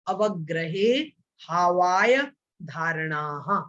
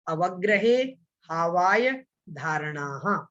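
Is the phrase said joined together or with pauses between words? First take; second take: paused; paused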